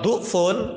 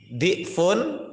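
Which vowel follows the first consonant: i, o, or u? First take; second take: u; i. First: The first vowel is a u sound. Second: The first vowel is an i sound. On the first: It means weak. "kalau du'fun maknanya apa? Lem, lemah" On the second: It means multiplied. "boleh dibaca di'fun"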